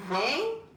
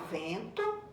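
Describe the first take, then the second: First: "vento" split into ven, pause, to; syllable by syllable. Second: Said in the usual way. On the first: Shown as a demonstration. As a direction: say "vento" in two separated syllables, first one lifted. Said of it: "quando você separar, vai ficar". ("vento" separado em sílabas: ven... to) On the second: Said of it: "vocês vão separar em sílabas".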